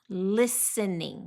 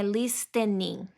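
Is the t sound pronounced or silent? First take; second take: silent; pronounced. First: The t sound is left silent. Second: The t sound is clearly pronounced. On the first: The speaker calls it right. "Esse T é mudo" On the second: The speaker calls it wrong. "não é listening"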